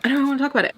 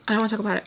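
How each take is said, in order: First: Exasperated. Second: Said in the usual way. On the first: Real, not acted.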